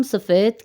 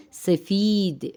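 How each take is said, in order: First: Said in the usual way. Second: سفید as "se-feeed", ee held out and falling; Persian long ee. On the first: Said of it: "Urdu میں ہم سفید کہتے ہیں". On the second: Shown as a demonstration. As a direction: hold the ee in سفید. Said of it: "چھوٹی یا کی آواز کے ساتھ".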